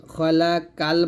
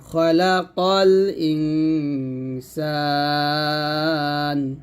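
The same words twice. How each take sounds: First: "খলাকাল" with a plain k in the last syllable; thin "kal" in place of heavy qaf; light k, wrong form. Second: Slow recitation, "qol" thick and rounded in "খলাকাল"; heavy qaf recitation. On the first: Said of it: "খলাকাল বলা যাবে না". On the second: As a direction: chant "খলাকাল" with heavy q, then hold "ইনসান" long. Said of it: "খলাকাল বলতে হবে". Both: Shown as a demonstration.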